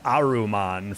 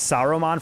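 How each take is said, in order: First: The name begins with a vowel sound. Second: The name begins with an S sound. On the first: "and then it's Aruman for other pronunciations" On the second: "it's Saruman for some of it"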